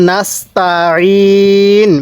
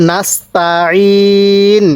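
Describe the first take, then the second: No difference in how they are said.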